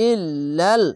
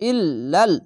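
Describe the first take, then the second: Both takes have the same delivery.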